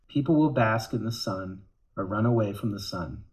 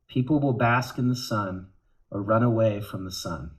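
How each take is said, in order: First: It is read in a sad tone. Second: It is read in a sad tone.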